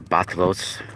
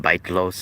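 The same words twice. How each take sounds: First: "batlos" with first syllable like "bat"; alternative pronunciation. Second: "baitlos" with first syllable like "bait"; first pronunciation. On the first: Vlogger showing viewers another way to say it, "batlos" with BAT first. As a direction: say "batlos", opening on a short A vowel. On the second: Vlogger showing viewers ways to say a word, "baitlos" with BAIT first. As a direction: say "baitlos", opening on a long AY vowel. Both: Shown as a demonstration. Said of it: "different ways to pronounce the word".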